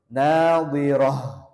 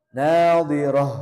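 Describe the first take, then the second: First: The word ends with an h sound. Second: The same.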